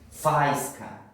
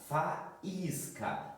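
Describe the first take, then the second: First: The a and i merge into one syllable. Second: The a and i fall in separate syllables. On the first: The speaker calls it wrong. "se nós não colocamos no acento, nós poderíamos ler" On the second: The speaker calls it right. "Para não termos uma ditongação"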